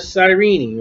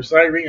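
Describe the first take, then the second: First: Cyrene in three syllables, ending in "-nee"; alternate pronunciation. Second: Cyrene in two syllables, ending in "-reen"; alternate pronunciation. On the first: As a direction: say Cyrene as "sigh-REE-nee". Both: Shown as a demonstration. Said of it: "however you want to say it".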